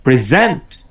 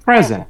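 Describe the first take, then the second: First: present with weak PRE, strong ZENT; verb stress. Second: present with strong PRE, weak ending; noun stress. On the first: Teacher repeating the verb form, second syllable stressed. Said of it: "verb হলে". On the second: Teacher repeating the noun form, first syllable stressed. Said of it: "noun হলে". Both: Shown as a demonstration.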